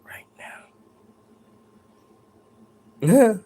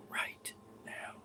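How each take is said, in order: First: Drawn-out with a lift on now; imitating the voice. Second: Breathy whisper, barely there. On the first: Ghost hunter showing the real whisper's shape. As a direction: imitate how the ghost really said it. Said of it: "It was more like". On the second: Retold or imitated. Ghost hunter imitating a faint whisper. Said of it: "she didn't say it like that".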